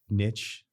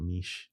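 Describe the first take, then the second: First: The word is said the plain English way. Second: The word is said the French-sounding way. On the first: "Instead of uh, uh, niche" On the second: "Niche, sounds like French"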